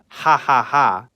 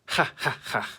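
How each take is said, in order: First: The laugh is said with a plain English h. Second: The laugh is said with a Slavic throaty h. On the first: The speaker calls it wrong. "It's not ha ha ha" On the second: The speaker calls it right. "it's a more Slavic laugh"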